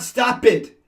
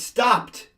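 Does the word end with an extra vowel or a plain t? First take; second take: extra vowel; plain t. First: The ending is an extra syllable, like 'it'. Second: The ending is a plain t, one syllable. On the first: The speaker calls it wrong. "It's not stop it" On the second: The speaker calls it right. "It's stopped"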